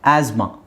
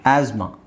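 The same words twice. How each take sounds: Both takes have the same delivery.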